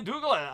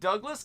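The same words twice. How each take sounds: First: The name is said in a Latin American accent. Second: The name is said in a plain English accent. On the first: "especially from the Latin American culture, will say Douglas" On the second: "instead of saying Douglas"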